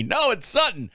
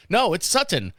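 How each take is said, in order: First: "Sutton" with a clipped first T, higher; repeat-after-me drill. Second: "Sutton" with a full second syllable; repeat-after-me drill. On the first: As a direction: drill "No, it's Sutton" like a teacher. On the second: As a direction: repeat "No, it's Sutton" clearly. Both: Shown as a demonstration. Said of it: "repeating after me".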